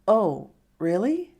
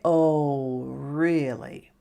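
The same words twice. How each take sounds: First: It is said with genuine surprise. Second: It is said with a sarcastic, doubting tone. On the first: The news is accepted as surprising. "Like, I'm surprised" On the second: The information is not believed. "then it sounds sarcastic"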